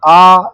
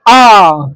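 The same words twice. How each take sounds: First: The vowel is said plainly, without extra force. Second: The vowel is said with extra force. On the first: "ये normal हो गया" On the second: "थोड़ा बल दे के बोलेंगे"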